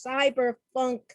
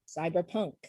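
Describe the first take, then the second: First: "cyberpunk" said with an f, as "cyberfunk"; "cyberpunk" ending in funk, higher and louder. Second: Said in the usual way. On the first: Real, not acted. Lists cyberfunk beside cyberpunk.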